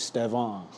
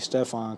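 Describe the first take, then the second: First: The middle consonant is a V sound. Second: The middle consonant is an F sound. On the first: The speaker calls it right. "if y'all want to try to pronounce it when y'all go home tonight, it's Stevan" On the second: The speaker calls it wrong. "people just call me Stefan because that's what they thought it was"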